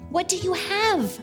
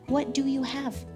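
First: It is said in an excited way. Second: It is said in a gentle way.

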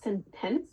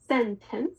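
First: The stress is on the second syllable. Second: The stress is on the first syllable. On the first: The speaker calls it wrong. "not sentence" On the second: The speaker calls it right. "it's sentence"

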